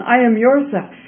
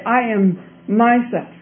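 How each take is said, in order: First: "yourself" lightly stressed, raised then falling. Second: "myself" set apart, slow and deliberate; slow down and weigh "myself"; stress on myself. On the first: Princess quoting the crying voice, stress on "yourself". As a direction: put the weight on "yourself". Quotes voice against man's words. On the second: Princess quoting the old man's puzzling claim, slow "myself". Contrasts man's words with voice's. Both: A narrator's reading.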